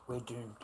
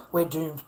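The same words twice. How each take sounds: First: Said in the usual way. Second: Ranting repeat to the camera; louder repeat. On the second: Real, not acted. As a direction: hammer the repeat home. Gloomy repeated rant line.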